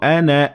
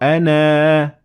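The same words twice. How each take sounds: First: The final vowel is short, not lengthened. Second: The final vowel is long and fully pronounced. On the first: The reciter continues without stopping. "if you continue, you will not pronounce the alif" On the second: The reciter stops at this word. "if you stop at the word, you will have to pronounce the alif"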